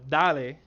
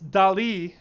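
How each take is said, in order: First: The name is said in a Miami Spanish style. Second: The name is said like the artist's surname. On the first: The speaker claims the name for their hometown. "as someone from Miami, I can't help but explain, uh, but call it uh, dale" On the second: This is how the makers say it. "it's Dali, as in, you know, the famous artist Salvador Dali"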